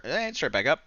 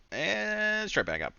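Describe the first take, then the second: First: Said in the usual way. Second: Drawn-out. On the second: Shown as a demonstration. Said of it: "monster red candle".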